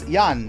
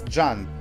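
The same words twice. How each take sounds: First: The name begins with a Y sound. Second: The name begins with a J sound. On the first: The speaker calls it right. "the J you read as an I, so it's Jan" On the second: The speaker calls it wrong. "not Jan"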